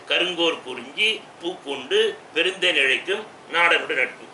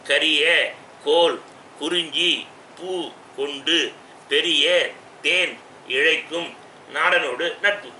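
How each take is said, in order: First: The compound words are joined into single words. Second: The compound words are split into separate words. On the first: "சேர்த்து சொல்கிறேன்" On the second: "இந்த பாட்டை இப்போ பிரித்து சொன்னேன்"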